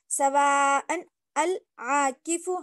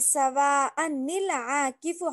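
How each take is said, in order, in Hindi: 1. यह पहले शब्द के बाद रुकता है, फिर शुरू होता है। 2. यह आगे चलता रहता है, 'nil' ध्वनि से जुड़कर। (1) "अगर यहाँ पे वक्फ करना चाह रहे हैं" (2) "अगर हम यहाँ पे वक्फ नहीं करें"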